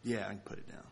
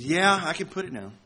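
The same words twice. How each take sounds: First: Soft and subdued; quiet. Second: Frustrated, huffy snap. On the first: Shown as a demonstration. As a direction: say it low and quiet. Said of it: "My words were saying one thing". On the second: Retold or imitated. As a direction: sound annoyed and put out. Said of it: "In a kind of a frustrated and a huffy tone".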